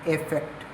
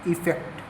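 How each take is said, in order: First: The word begins with an 'e' vowel sound. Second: The word begins with an 'i' vowel sound. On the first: This is how shorthand reads it. "Shorthand के according इसका जो pronunciation है वो होता है एफेक्ट" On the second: This is how people commonly say it. "हमारे according इसका जो प्रोनंसिएशन है"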